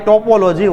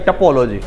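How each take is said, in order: First: The first vowel is a full 'o' sound. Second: The first vowel is a reduced 'uh' sound. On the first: This is how it is spelled. The speaker calls it wrong. "ટોપોલોજી લખાય" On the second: This is how it is actually said. The speaker calls it right. "વચાય ટપોલોજી"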